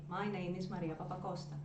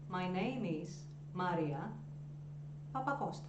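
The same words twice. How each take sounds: First: The name runs on flatly without any pause. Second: First name is high, a pause, surname drops. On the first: Listeners will not remember the name. The speaker calls it wrong. "we usually say" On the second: It makes an impression. The speaker calls it right. "you pitch higher your first name, you pose, and then you let your surname sort of drop"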